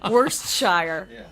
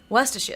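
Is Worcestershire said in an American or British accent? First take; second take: American; British. First: It is said in an American accent. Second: It is said in a British accent. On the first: This is how Americans say it. "Americans, we're so obnoxious" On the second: This is how the British coaches said it. "my speech coach was you know Worcestershire"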